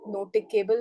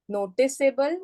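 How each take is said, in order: First: The middle C is a hard K sound. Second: The middle C is a soft S sound. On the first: The speaker calls it wrong. "it becomes the hard C sound and we say as K" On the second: The speaker calls it right. "to have the soft C sound there, we have to keep the E there"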